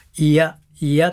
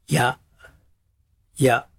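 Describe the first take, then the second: First: The i and ya sounds are said separately. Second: The i and ya sounds are squeezed together. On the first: "分解すると「いや」「いや」っていうような感じです" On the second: "いやいやをパンと一緒に潰して"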